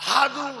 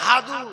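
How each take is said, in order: No difference in how they are said.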